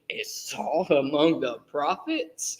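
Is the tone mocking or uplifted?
mocking. It sounds scornful and mocking.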